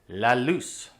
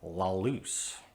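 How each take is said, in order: First: The L sounds are light and clear. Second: The L sounds are dark and hollow. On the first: The speaker calls it right. "Those L's are supposed to be light" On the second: The speaker calls it wrong.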